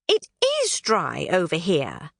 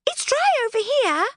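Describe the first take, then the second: First: It is dry, with weight on it and is; stress on is. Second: Higher pixie voice, plain observation with dry stressed; pixie observing. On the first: Knotgrass admitting it really is dry, stressing it is. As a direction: concede it, leaning on it is. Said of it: "looked up". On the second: Thistlewit remarking it is dry, lightly higher pixie voice. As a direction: point it out, a touch puzzled. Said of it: "Thistlewit observed". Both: Acted.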